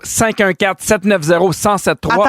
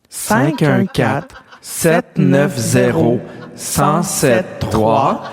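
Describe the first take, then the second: First: The number is read at a quick pace. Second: The number is read at a slow pace.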